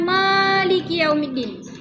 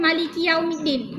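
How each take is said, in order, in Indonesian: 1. Vokal pertama pada maliki panjang. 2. Vokal pertama pada maliki pendek. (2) "maliki dibaca dengan maliki yaumiddin"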